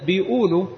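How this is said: The word is said in colloquial dialect form.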